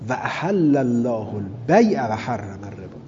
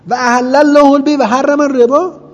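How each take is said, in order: First: It is read as a plain, firm declarative statement. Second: It is read with an incredulous, mocking, questioning tone. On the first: The ruling is stated as fact. "مقول قول خدا بگیریم" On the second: The speakers scornfully deny the ruling. "مقول قول اونا بگیریم باید انکاری بخونیم"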